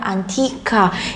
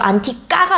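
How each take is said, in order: First: The t is softer, between ㅌ and ㄸ. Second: The t is hard and tense, like Korean ㄸ. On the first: The speaker calls it right. "쌍자음 소리보다는 조금 더 약하게" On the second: The speaker calls it wrong. "쌍디귿 발음이라고 생각을 하시면 안 돼요"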